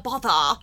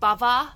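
First: The middle consonant is a th sound. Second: The middle consonant is a v sound. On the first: "Is the proper way to say that title" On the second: "Or you can say, like, Bava"

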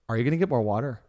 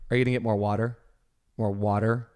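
First: The question ends with a distinct regional intonation. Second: The question ends with a plain intonation. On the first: This is the question style picked up after the move. "Now it has become ... it's a certain intonation" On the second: This is how questions were asked before the move. "when you lived in Mount Vernon ... you would have said"

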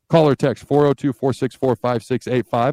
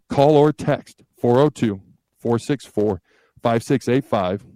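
First: The number is said fast. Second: The number is said slowly.

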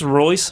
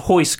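First: The name begins with an English R sound. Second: The name begins with an H-like sound. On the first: This is how the spelling reads to an English speaker. The speaker calls it wrong. "the father named his sons Rolls Royce" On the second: This is the Portuguese pronunciation. The speaker calls it right. "but they're Holes and Hoist Gracie"

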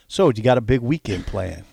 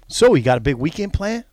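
First: It is said plainly, without extra energy. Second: It is said with lots of energy and enthusiasm.

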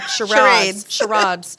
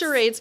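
First: The word is given a fancy, French-sounding pronunciation. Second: The word is given a plain, ordinary pronunciation.

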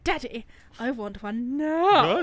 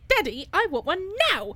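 First: The put-on voice is pitched lower. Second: The put-on voice is pitched high. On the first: "now she's gone down a bit" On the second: "she was up here"

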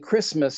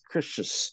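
First: The word is pronounced with its full ending. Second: The word is pronounced with a garbled ending. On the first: The speaker calls it right. "Instead of saying Christmas" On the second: The speaker calls it wrong. "he says Christmas"

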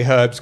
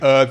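First: It is said in a British accent, with h. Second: It is said in an American accent, no h.

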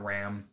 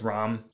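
First: The vowel is an 'a' as in 'cat'. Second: The vowel is a harder 'o' sound. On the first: The speaker calls it wrong. "Not Ram" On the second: The speaker calls it right. "kind of like a harder O to almost A"

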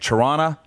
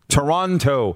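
First: The second t is dropped, sounding relaxed. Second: Every syllable is fully enunciated, t included. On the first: This is how local viewers say the name. The speaker calls it right. "I'm saying Toronto" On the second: This is the careful broadcast way to say the name. The speaker calls it wrong. "I was brought up in this business to enunciate Toronto"

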